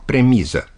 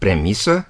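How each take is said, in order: First: The middle consonant is a voiced z sound. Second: The middle consonant is a voiceless s sound. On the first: The speaker calls it wrong. "când cu Z" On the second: The speaker calls it right. "se pronunță când cu S"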